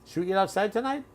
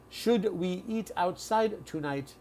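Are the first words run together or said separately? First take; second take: run together; separate. First: The words are reduced and run together quickly. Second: Each word is said fully and clearly separated. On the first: This is how native speakers normally talk. "that is how we all speak" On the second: The speaker is simplifying for a learner. "They're speaking like that for you because they know you're you are an English learner"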